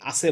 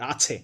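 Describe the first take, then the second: First: The middle consonant is said without aspiration. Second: The middle consonant is said with aspiration. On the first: The speaker calls it wrong. "কখনো আছে কে আছে বলতেছি" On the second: The speaker calls it right. "আসলে তো আছে"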